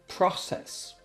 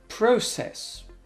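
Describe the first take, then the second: First: It is said in an American accent. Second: It is said in a British accent.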